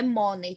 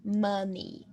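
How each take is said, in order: First: "money" with an o, as "MOH-ney"; mispronounced "money". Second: "money" as "MUH-nee"; correct "money" pronunciation. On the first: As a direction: say "money" wrongly, like "mó-nei". ("money" errado, com som de "ó": "mónei") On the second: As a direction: say "money" with an uh in the first syllable. ("money" correto, com som de "â": "mâni") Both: Shown as a demonstration. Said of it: "Não é money, tá, gente?".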